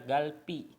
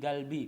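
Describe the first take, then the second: First: The consonant after the L is tense. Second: The consonant after the L stays plain. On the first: The speaker calls it wrong. "nggak bisa dibaca galpi" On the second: The speaker calls it right. "tapi galbi, masih tetap galbi"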